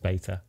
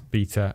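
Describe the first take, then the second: First: It is said in an American accent. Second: It is said in an English accent.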